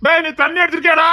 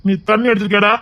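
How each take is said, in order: First: High, heated demand; scolding question, pitched right up; heated accusation. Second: Said in the usual way. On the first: Acted. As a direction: raise the pitch and demand an answer. Repeats accusation, more heated.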